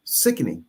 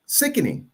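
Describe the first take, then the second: First: Low, soft "Sickening" with a falling end; low disgusted sickening. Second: "Sickening" pitched up high and soft, falling at the end; higher disgusted sickening. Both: Real, not acted. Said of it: "Very sickening".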